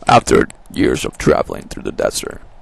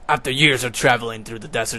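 First: It is read in a dramatic, epic voice. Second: It is read in a plain, normal voice.

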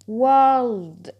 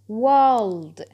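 Both takes have the same delivery.

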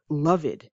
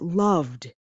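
First: The ending is not pronounced as a d sound. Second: The ending is pronounced as a d sound. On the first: The speaker calls it wrong. "and not loved" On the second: The speaker calls it right. "it's a D sound, that it's pronounced loved"

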